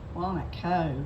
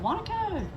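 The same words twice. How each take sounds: First: It is said in a disparaging, dismissive tone. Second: It is said in a positive, warm tone. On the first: The town is run-down and not worth much. The speaker calls it wrong. "said it this way" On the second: The town is something to be proud of. The speaker calls it right. "instead of"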